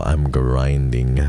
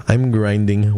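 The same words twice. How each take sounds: First: Slow declaration. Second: Pumped up. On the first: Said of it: "repeated declaration, slow then loud". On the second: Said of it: "second take, higher and firmer". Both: Shown as a demonstration.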